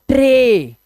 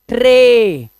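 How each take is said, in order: Both takes have the same delivery.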